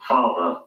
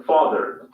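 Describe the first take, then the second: First: "Father" ending in a plain schwa, no R; British "Father" with a simple schwa ending. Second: "Father" with the final R sounded, "fath-er"; American "Father" ending in a clear R. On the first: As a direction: RP "Father", lower, R dropped. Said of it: "final R sound is not pronounced in British English". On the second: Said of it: "Let's focus on two words". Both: Shown as a demonstration.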